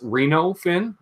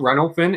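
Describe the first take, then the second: First: The first word sounds like Reno, Nevada. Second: The first word does not sound like Reno, Nevada. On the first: The speaker calls it right. "like Reno, Nevada" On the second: The speaker calls it wrong. "It's not Reno Fin"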